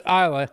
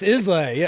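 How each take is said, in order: First: It is pronounced the way Scottish people say it. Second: It is pronounced the Southern US way. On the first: "If you're in Scotland, it's Islay" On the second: "here in the south, it's Islay"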